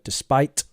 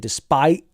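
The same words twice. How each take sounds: First: The final t is audibly released. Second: The final t is a glottal stop. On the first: "we need a bit of a t" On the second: "the British thing of the glottal stop"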